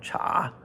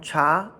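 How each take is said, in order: First: The pitch dips low and comes back up. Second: The pitch rises from middle to high. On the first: "third tone cha" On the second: "second tone cha"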